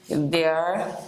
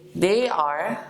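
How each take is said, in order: First: The two words merge into one short syllable. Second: Both words are said fully and separately. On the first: "but you want to shorten it" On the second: "you can say, they are"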